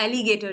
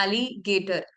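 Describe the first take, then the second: First: Said in the usual way. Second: alligator in two chunks, "एली... गेटर"; split into syllables. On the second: Shown as a demonstration. Teacher counting syllables for learners, alligator split in two. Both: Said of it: "दो syllables आ गए".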